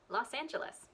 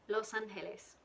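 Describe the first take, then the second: First: The vowels are short and compressed. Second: The vowels are drawn out long.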